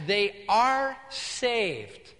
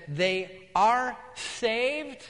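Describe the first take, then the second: First: "they are saved" stretched very slowly, falling; "they are saved" as a deliberate, spaced-out statement; drawn-out assertion. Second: "They are saved" stretched out as a question; very slow, spaced-out query on "They are saved"; incredulous echo. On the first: Retold insistence on parents' salvation. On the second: Pastor echoes the claim as question. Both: Retold or imitated.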